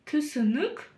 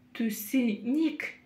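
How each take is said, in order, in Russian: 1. Гласные звучат коротко и между твёрдым и мягким. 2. Гласные звучат мягко, как русское «и». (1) "та самая средняя мягкость между буквами «ы» и «и»" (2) "чересчур мягко"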